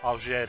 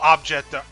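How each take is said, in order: First: The word is pronounced the French way. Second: The word is pronounced the English way.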